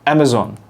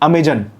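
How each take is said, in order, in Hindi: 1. बीच का व्यंजन 'z' की आवाज़ है। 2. बीच का व्यंजन 'j' की आवाज़ है। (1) "वैसे अमेज़न अगर आपको बोलना हो तो ज ज और ज अंतर है बहुत बड़ा।" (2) "इस पे लिखा है अमेजन, तो अमेजन लिखा है तो इंसान बोलेगा भी उसी तरीके से।"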